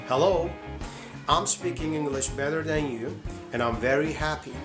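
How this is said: It is spoken with an American accent. "this is American accent"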